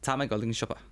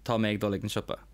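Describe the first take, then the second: First: Spoken in a northern Irish accent, different á. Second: Spoken in a southern Irish accent, mé full. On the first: "Then in the north, you'd say Ta" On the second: "in Leinster and Munster, we would say Tá me"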